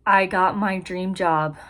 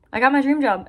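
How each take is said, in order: First: Said in the usual way. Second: Higher, excited repeat of good news. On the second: Real, not acted. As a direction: let the excitement lift your voice.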